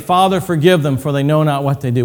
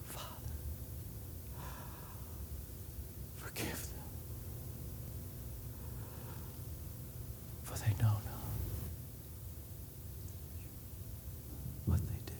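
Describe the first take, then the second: First: It is said in a full, casual voice. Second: It is said in a breathless whisper.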